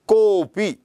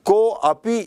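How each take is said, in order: First: The 'a' is dropped, giving one word 'kopi'. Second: The 'a' is sounded separately as 'ko api'. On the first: The speaker calls it right. "इसका उच्चारण कोपी ऐसा करते हैं" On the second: The speaker calls it wrong. "को अपी ऐसा उच्चारण नहीं करते हैं"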